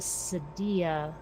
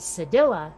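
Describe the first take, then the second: First: The double L sounds like a Y. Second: The double L sounds like an L. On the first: "I guess it's called a Sadia" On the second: "unless a double L is not pronounced the same as Spanish and Portuguese, in which case it would be Sedilla"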